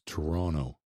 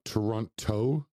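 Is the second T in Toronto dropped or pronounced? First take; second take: dropped; pronounced. First: The second T is dropped. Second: The second T is clearly pronounced. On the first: The speaker calls it right. "Don't pronounce the second T" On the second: The speaker calls it wrong. "It's not Toronto"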